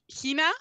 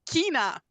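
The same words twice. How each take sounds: First: The word begins with a soft ch sound. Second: The word begins with a hard k sound.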